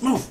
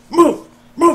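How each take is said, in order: First: Said in the usual way. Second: Sudden high loud command; barked order. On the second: Acted. Sergeant shouting at the troops, loud high command. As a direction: yell it like a drill sergeant. Mock army scene, ordering move.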